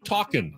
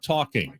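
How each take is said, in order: First: The word ends without the final g sound. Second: The word ends with a full ng sound.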